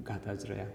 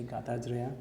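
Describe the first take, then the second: First: Soft echo. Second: Said in the usual way. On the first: Shown as a demonstration. Teacher echoing the guru's endless singing, softer. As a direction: repeat ગાતા જ રહ્યા softer, fading away.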